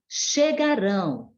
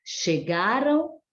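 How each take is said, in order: First: "chegarão" stressed on final RÃO, falling; stress on last syllable. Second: "Chegaram" stressed on GA, tune rising; stress on penultimate syllable. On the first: Teacher showing the future form, "chegarão" stressed on RÃO. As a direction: land firmly on RÃO in "chegarão". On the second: Teacher showing the past form, "Chegaram" stressed on GA. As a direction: lean on GA in "Chegaram", lift the light ending. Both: Shown as a demonstration. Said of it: "Olha só a diferença ali".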